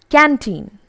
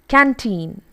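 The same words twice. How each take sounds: The two takes are said the same way.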